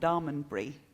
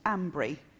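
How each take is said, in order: First: The name is said with all its syllables. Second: The name is squeezed into two short syllables. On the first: This is how outsiders would say it. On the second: This is how local people say it.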